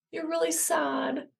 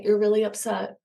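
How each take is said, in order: First: Higher, slower, softer "really sad"; gently mirror a child's sadness; tender empathy. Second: Said in the usual way. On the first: Shown as a demonstration. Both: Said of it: "communicate that you are receiving their feelings".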